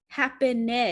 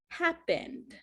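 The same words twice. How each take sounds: First: The vowel before the final D is pronounced. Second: The vowel before the final D is dropped. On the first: The speaker calls it wrong. "it's not happened" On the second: The speaker calls it right. "It's kind of like you remove this E"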